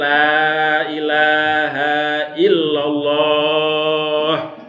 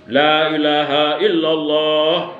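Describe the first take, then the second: First: It is said slowly, broken into parts. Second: It is said quickly in one run. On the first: The dying person can follow along. The speaker calls it right. "pelan-pelan dituntun" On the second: The dying person gets confused. The speaker calls it wrong.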